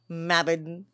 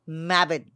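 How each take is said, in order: No difference in how they are said.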